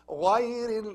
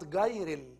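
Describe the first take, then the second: First: It starts with a gargled sound from the throat. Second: It starts with a hard g sound. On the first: The speaker calls it right. "It's غا... like غا" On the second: The speaker calls it wrong. "like G H in English"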